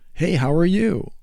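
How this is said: The greeting sounds warm and welcoming.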